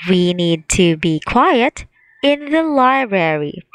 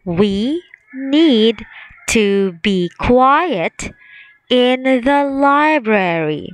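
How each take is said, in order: First: Said in the usual way. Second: Very slow, word by word; slow choral read. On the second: Shown as a demonstration. Teacher leading the class slowly through the answer sentence. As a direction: stretch each word for the class to follow. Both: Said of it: "Let's say it together".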